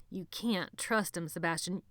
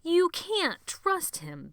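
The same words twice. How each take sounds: First: Said in the usual way. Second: Much higher, slow, loud insistence; insistent repeat. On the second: A narrator's reading. Benny repeating his warning, high and slow. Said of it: "Benny said again".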